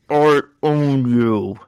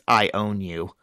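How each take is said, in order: First: It is said muffled, as if through a covered mouth. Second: It is said in a clear, normal voice.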